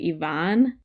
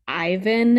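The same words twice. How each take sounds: First: The name is said the Russian way. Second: The name is said the anglicized English way. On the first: The speaker calls it right. "instead of Ivan" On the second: The speaker calls it wrong. "he also calls him like Ivan"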